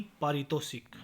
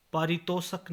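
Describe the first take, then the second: First: Said in the usual way. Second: पारितोषक ending in -shak; mispronunciation. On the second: Shown as a demonstration. (पारितोषक, ष पर अ) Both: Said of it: "नहीं".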